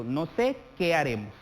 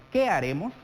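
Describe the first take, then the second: First: "No sé qué haremos" as a statement, falling at the end; embedded "qué haremos", settling down to a close; indirect question. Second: "Qué haremos" asked outright, with a raised, punched "Qué"; "Qué haremos" a little louder, as an open question; direct question. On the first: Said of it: "Estamos haciendo una interrogación indirecta". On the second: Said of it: "Es una pregunta directa". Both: Shown as a demonstration.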